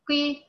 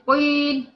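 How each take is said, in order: First: The first consonant is only moderately emphasized. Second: The first consonant is strongly emphasized and heavy. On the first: The speaker calls it right. "لا بتقولي قيل" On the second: The speaker calls it wrong. "ما بتقوليش قيل"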